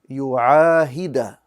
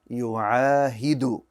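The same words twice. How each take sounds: First: The word ends with an 'a' vowel. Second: The word ends with a 'u' vowel. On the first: The speaker calls it wrong. "I pronounced it with a fatha" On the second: The speaker calls it right. "it should have been a dhamma"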